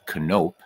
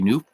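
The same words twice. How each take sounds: First: The name has a Dutch-style pronunciation. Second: The name has an English-style pronunciation. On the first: This is the original Dutch way. "you would say his name in Dutch is Knoop" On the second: This is how the player himself said it. "he never said it that way, so I won't either"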